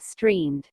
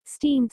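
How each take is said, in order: First: "streamed" with a clear r, as stree-md; "streamed" said properly, r included; corrected word. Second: "Steamed" said without the r, as stee-md; "Steamed" slip, no r sound; mispronounced word. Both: Shown as a demonstration. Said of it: "Steamed, streamed".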